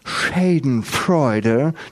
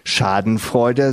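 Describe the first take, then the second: First: The word is said with an English accent. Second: The word is said with a German accent. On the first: "das heißt nicht Schadenfreude" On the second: "Nur sagen sie nicht Schadenfreude"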